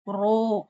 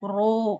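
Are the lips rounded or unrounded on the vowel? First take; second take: rounded; rounded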